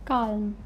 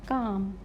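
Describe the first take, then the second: First: Calm with the L sounded; wrong pronunciation demo. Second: Calm with the L silent; correct silent-letter pronunciation. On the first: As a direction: say "calm" voicing the l before the m. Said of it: "Not calm". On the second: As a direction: say "Calm" as a long vowel straight into m. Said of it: "L is silent". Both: Shown as a demonstration.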